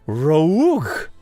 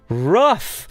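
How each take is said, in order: First: The ending is not pronounced as an f sound. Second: The ending is pronounced as an f sound. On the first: The speaker calls it wrong. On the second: The speaker calls it right. "A double F. Uff"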